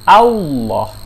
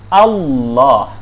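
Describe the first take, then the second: First: An extra w sound appears before the thick lam. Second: The lam is said thick with no extra w sound. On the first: The speaker calls it wrong. "yang kedua dibaca dengan salah" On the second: The speaker calls it right. "Yang benar itu adalah"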